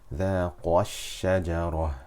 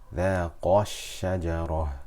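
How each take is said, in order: The two takes are said the same way.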